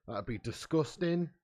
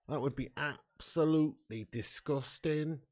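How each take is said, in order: First: Said in the usual way. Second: Absolutely drawn out slowly with weight; slow disgusted emphasis on absolutely; stress on absolutely. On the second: Real, not acted.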